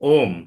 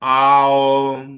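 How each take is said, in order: First: It is a single 'o' sound followed by 'm'. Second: It starts with 'ah' gliding into 'oo'. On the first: The speaker calls it wrong. "Ninety nine point nine percent ओ एम" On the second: The speaker calls it right. "जो actual है ये ए यू एम"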